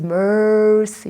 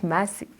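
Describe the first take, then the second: First: Slow "Mercy" with an r-coloured first syllable; "Mercy" said the American way, slowly; American pronunciation. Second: Softer "Mercy" without r, mæsi; "Mercy" Kenyan-style, no r; Kenyan pronunciation. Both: Retold or imitated. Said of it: "My name is Mercy, not Mercy".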